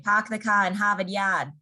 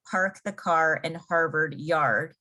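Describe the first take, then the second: First: Boston accent with the R's dropped. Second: Said in the usual way. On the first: Shown as a demonstration. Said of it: "they kind of skip their R's". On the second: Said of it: "would be in English".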